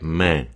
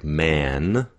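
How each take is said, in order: First: "man" with a nasalized vowel and no N; dropped final N. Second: Said in the usual way. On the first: Shown as a demonstration. Coach showing Mandarin English accent, nasal "man" without its N. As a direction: let "man" end in the nose without closing the N. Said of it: "the N drops off and the vowel becomes nasalized". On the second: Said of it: "when we get a word like man".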